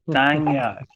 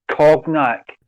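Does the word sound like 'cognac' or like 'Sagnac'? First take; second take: Sagnac; cognac. First: The word begins with a 'sag' sound. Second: The word sounds like the drink cognac. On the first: The speaker calls it right. "It's Sagnac" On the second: The speaker calls it wrong. "you don't say cognac"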